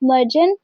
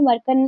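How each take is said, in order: First: The middle consonant is a j sound. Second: The middle consonant is a k sound. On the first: This is how it is said in Turkish. "Turkish में मर्जन प्रोनाउंस किया जाता है" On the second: This is how it will be said here. "हम लोग यहाँ पे मर्कन प्रोनाउंस करेंगे"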